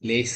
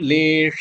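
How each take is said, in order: First: The middle consonant is a plain s sound. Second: The middle consonant is a sh sound. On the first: The speaker calls it wrong. "லேச இல்ல" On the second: The speaker calls it right. "லேஷ லேச இல்ல"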